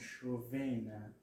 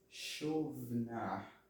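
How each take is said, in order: First: A short vowel separates the v and n. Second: The v joins the n with no vowel. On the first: The speaker calls it wrong. "e não chovena" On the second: The speaker calls it right. "Chovna e não chovena"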